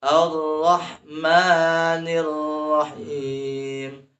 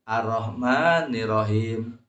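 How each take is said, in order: First: Slow chant, both Rs of Ar-Rahmanir Rahim doubled; Ar-Rahmanir Rahim with held R. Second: Limp Ar-Rahmanir Rahim, R left light; Ar-Rahmanir Rahim without tasdid. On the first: Teacher showing correct reading, Ar-Rahmanir Rahim with strong tasdid. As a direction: press and sustain the R in Ar-Rahmanir Rahim. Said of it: "Jadi dibacanya harus". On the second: Teacher showing wrong reading, spiritless Ar-Rahmanir Rahim without held R. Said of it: "Jadi tidak semangat, tidak greget". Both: Shown as a demonstration.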